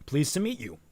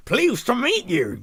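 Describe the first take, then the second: First: Said in the usual way. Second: Loud, high, drawn-out attempt at a chorus; hammed-up speaking in unison, slow and high; two voices at once. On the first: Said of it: "how I'm supposed to vocalize that". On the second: Two characters greeting each other at the same time, mock chorus. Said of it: "they both said at the same time".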